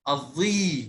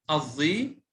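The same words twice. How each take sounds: First: الظي with a drawn-out final ii; long vowel. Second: Said in the usual way. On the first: Shown as a demonstration. Teacher showing ya lengthening to the class, الظي held long. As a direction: stretch the ya ending of الظي. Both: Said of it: "مع مد الياء".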